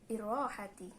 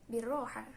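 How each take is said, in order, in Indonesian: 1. Kata ini berakhir dengan suku kata 'ti'. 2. Kata ini berakhir dengan 'ha' tanpa 't'. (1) "di dalam bahasa Fusha" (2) "Jadi taknya seperti hilang"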